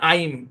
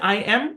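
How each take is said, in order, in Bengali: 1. এটা একটি ছোট একক ধ্বনিতে মিশে যায়। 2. এটা দুটো আলাদা পূর্ণ শব্দ হিসেবে বলা হয়। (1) "কন্ট্রাকশন করে বলা হয়েছে" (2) "মূল ছিল হচ্ছে"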